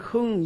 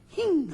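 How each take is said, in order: First: The vowel is a flat unrounded 'eu' sound. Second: The vowel shifts toward an 'i' sound. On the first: It means rising up or flourishing. The speaker calls it right. "이 발음을 잘해야 돼요" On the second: It sounds like sarcastic mockery. The speaker calls it wrong. "힝 하게 되면은 이건 안 돼요"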